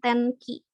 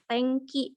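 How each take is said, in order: First: The nasal before k sounds like plain n. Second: The nasal before k sounds like ng. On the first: The speaker calls it wrong. "bukan tenki" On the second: The speaker calls it right. "N ini dibacanya eng"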